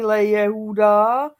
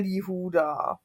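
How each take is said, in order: First: It is said as two words, le and Yehuda. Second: It is merged into one word starting with li. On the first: The speaker calls it wrong. "není le Jehuda" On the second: The speaker calls it right. "ale je Líhuda"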